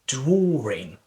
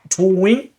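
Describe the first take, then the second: First: An R sound is inserted inside the word. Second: The word is said with no R sound inside. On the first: The speaker calls it right. "you have to pronounce it drawing" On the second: The speaker calls it wrong. "a lot of people they might think that is drawing"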